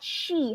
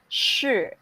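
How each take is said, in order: First: The vowel is a clear 'ee' sound. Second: The vowel is a buzzed 'er'-like sound. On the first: The speaker calls it wrong. "this is not she" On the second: The speaker calls it right. "This is shi"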